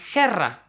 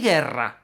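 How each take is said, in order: First: The word begins with a throaty h sound. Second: The word begins with a hard g sound. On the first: "If that U weren't there" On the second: "that U is silent"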